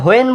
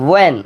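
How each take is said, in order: First: "when" said as "hoen", h before the w; mistaken h pronunciation. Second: "when" begun straight on w, like "wen"; W without h. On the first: Teacher shows what we won't say, mistaken h pronunciation. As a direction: add a breathed h to the front of "when". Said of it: "when বলবো না". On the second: Teacher shows what we will say, w without h. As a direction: open "when" on a pushed w, no h. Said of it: "আমরা বলবো when". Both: Shown as a demonstration.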